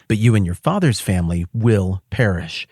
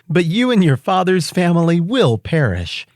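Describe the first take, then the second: First: The voice sounds mean and threatening. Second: The voice sounds gentle and tender. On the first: The speaker is warning harshly. "you read Mordecai's words like all mean and stuff, like he was being threatening" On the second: The speaker is pleading out of care. "Let me read it with Mordecai sounding nicer"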